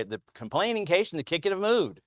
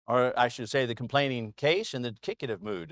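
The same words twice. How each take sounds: First: A lightly voiced lecturing professor, a little higher; mock professor. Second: Said in the usual way. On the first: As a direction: recite it like a pompous grammar professor. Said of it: "I would have professors say". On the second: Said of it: "how I would have professors say".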